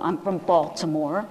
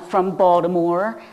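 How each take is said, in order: First: Baltimore is said in a standard accent. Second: Baltimore is said in a local Baltimore accent.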